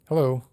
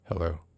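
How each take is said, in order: First: It is said in a cheerful, friendly way. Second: It is said in a curt, annoyed way.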